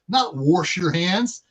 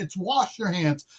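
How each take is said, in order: First: Wash is said with an added r sound. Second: Wash is said without an added r sound. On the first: This is a regional dialect way of saying it. The speaker calls it wrong. "Why are you saying it like that?" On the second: This is the usual way people say it. The speaker calls it right. "That's not how you pronounce pronounce it"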